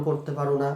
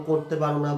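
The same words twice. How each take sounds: The two takes are said the same way.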